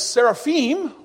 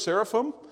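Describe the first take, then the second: First: The word is pronounced the Hebrew way. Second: The word is pronounced the English way.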